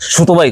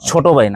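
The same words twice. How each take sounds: First: The first consonant replaces the aspirated ch sound. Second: The first consonant is an aspirated ch sound. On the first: This is how speakers of the community say it. The speaker calls it wrong. "ছ পারে না, ছ ছোট ভাই কইব" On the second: This is the standard Bengali pronunciation. The speaker calls it right. "ছোট ভাই না"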